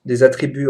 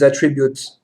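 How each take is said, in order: First: "attributs" in plain French, at-tri-BU; "attributs" said the standard French way; French correction. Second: "attributes" in an English accent, then correct to French; "attributes" pronounced as in English; English term, English accent. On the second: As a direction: say "attributes" the English way, ATT-ri-byoots. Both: Shown as a demonstration. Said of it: "des mots anglais avec l'accent anglais".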